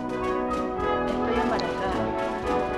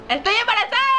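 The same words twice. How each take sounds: First: It is said quietly. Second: It is said loudly, almost shouted.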